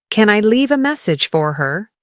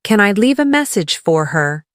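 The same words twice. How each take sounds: The two takes are said the same way.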